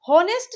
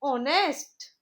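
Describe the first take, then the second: First: The word begins with an h sound. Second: The word begins directly with a vowel. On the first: The speaker calls it wrong. "इसे हम हॉनेस्ट नहीं पढ़ेंगे" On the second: The speaker calls it right. "जो इसमें एच है वो silent है"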